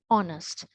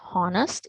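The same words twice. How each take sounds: First: The h at the start is silent. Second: The h at the start is pronounced. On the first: The speaker calls it right. "So H should be silent" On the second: The speaker calls it wrong. "It is not honest"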